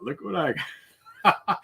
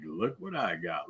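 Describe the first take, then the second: First: Sing-song tease jumping much higher on got; teasing. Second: Low, sly half-whisper tease; teasing. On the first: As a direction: rub it in, rising gleefully. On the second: Teasing his friend over a video of the gift, sly quiet murmur. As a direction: dangle it quietly, like a secret bait. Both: Retold or imitated. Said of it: "I teased him".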